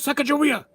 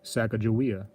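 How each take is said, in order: First: It is said in a dramatic, put-on fighter voice. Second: It is said in a plain, serious voice. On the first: "like you're a Street Fighter character" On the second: "all serious"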